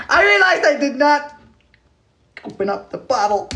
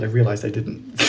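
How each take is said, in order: First: Squeaky high repeat; high, goofy self-mockery; silly high voice. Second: Said in the usual way. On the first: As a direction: say it in a playful falsetto. Repeats own line in silly voice.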